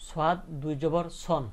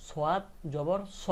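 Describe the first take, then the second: First: Slow spelling, ending on "সন" with an n; tanween with noon. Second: Slow spelling, open "স" with no final n; without tanween. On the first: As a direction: close "সন" on a clear n sound. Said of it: "নুনের সাথে মিলায়ে উচ্চারণটা হইলো". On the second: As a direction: leave "স" open on its vowel. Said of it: "তাহলে শুধু উচ্চারণ হতো কি". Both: Shown as a demonstration.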